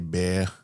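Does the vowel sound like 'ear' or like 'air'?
air. The vowel sounds like 'air' with a soft R. "we say"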